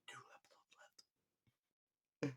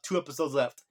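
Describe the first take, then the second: First: "Two episodes" breathed in a voiceless whisper. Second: Said in the usual way. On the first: Shown as a demonstration. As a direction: whisper it like a secret aside. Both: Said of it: "repeats it in a whisper".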